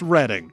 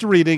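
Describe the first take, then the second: First: The first vowel is a short 'eh' sound. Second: The first vowel is a long 'ee' sound. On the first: The speaker calls it right. "it's Reading" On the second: The speaker calls it wrong. "It's not pronounced reading"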